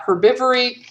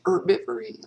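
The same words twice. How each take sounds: First: The word begins with a pronounced H sound. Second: The word begins without any H sound.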